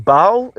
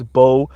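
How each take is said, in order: First: "Bao" said as bow, like the word for a bun; questioning "Bao", two-sound vowel ow; saying Bao. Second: "Bo" said as a long oh, rhyming with go; "Bo" said slowly and firmly, vowel oh; saying Bo. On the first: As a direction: try the name as "Bao", rhyming with now. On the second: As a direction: settle on "Bo" with a plain oh vowel. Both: Shown as a demonstration. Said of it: "Is it Bo or Bao?".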